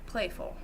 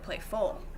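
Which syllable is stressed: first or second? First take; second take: first; second. First: The stress is on the first syllable. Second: The stress is on the second syllable. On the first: The speaker calls it right. "play is the, the root word of it... more of a stress, whereas full is going to be unstressed" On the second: The speaker calls it wrong. "You don't say playful"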